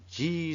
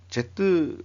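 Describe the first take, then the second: First: The letter is said as one syllable, 'jee'. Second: The letter is said as two syllables, 'jeh-teu'. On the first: The speaker calls it right. "G라고 발음해야 되겠죠" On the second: The speaker calls it wrong. "요즘 Z라고 하면 좀 촌놈이고"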